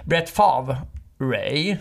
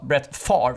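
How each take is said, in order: First: The surname ends with an added 'ray' sound. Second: The surname ends without an added 'ray' sound. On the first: The speaker calls it wrong. "så han säger Brett Favre Ray" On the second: The speaker calls it right. "det ska alltså uttalas Brett Favre"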